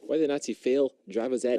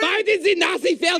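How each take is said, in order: First: It is said in his normal voice. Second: It is said in a put-on character voice.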